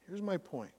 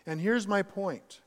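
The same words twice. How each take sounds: First: The same words again, much softer; quiet repeat. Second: Said in the usual way. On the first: Real, not acted. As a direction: drop your voice to let the point sink in. Preacher repeats key point.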